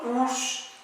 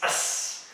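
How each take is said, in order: First: "us" as a high, drawn-out OOS; mispronunciation demo. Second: "us" as a soft, weak uhs; correct pronunciation. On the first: Teacher showing the ending it's not, mispronounced. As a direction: say "us" with a long oo, pitched high. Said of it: "it's not". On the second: Teacher showing the O U S ending, correctly pronounced. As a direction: say "us" with a schwa and a hissed S. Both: Shown as a demonstration.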